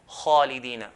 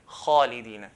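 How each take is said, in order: No difference in how they are said.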